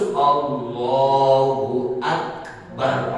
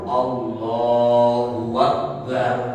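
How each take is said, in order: First: Akbar begins with a glottal stop. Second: Akbar begins with a w sound. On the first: The speaker calls it right. "Harus Allahu Akbar pakai hamzah" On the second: The speaker calls it wrong. "Itu dirubah wa wow"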